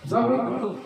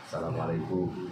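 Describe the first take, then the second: First: It is said in a loud, startling voice. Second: It is said in a soft, quiet voice.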